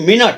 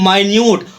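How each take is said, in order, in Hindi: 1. पहला स्वर एक छोटा 'ih' ध्वनि है। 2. पहला स्वर एक लंबा 'eye' ध्वनि है। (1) "इसको हम यहाँ पर उच्चारण करेंगे मिनट" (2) "इसका उच्चारण यहाँ पर करेंगे माइन्यूट"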